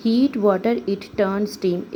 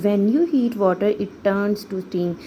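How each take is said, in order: First: Said in the usual way. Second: Slow, careful full sentence; slow model sentence. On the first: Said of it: "example इन्होंने हमें क्या दिया है". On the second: Shown as a demonstration. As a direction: read the full answer slowly for the class. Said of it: "कि जब आप पानी को गर्म करेंगे".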